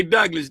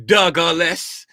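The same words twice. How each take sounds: First: Said in the usual way. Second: Douglas drawn out as Doug-a-less with an extra middle syllable; extra syllable in name. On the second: Shown as a demonstration. Teasing a viewer by saying Douglas as Doug-a-less. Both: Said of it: "do people be putting extra syllables".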